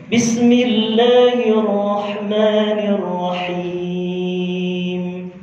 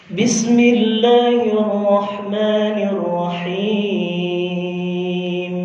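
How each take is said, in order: Both takes have the same delivery.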